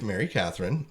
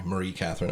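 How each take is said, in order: First: "Mary Catherine" said the plain English way; wrong name. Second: "Marie Catherine" with the French Marie, stress on -rie; corrected name. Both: Shown as a demonstration. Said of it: "Sorry, Marie Catherine".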